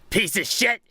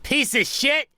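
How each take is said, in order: First: The voice is darker and deeper. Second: The voice is lighter and less dark.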